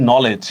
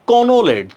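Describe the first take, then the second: First: "নলেজ" with silent k, starting on n; correct pronunciation. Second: "কনোলেজ" slowly, sounding the silent k; spelling pronunciation. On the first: Teacher showing class how it is spoken, correct pronunciation. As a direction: say "নলেজ" as no-ledge, no k sound. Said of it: "কিন্তু উচ্চারণ করতেছি". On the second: Teacher showing class the written form, spelling pronunciation. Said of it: "আমরা বানান লিখতেছি". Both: Shown as a demonstration.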